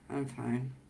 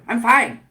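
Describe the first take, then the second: First: It sounds flat, frozen and shut down. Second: It sounds tense and a little aggressive.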